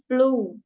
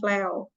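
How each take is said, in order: First: The vowel is a single long 'oo' sound. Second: The vowel is said as 'eh' gliding to 'oo'. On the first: The speaker calls it right. "itu dibaca flu ya" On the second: The speaker calls it wrong. "bukan flew"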